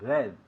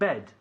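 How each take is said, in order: First: The b is soft, without a strong burst. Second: The b is released with a strong burst. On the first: The speaker calls it wrong. "No decimos bed" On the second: The speaker calls it right. "Bed es como b, es un sonido explosivo"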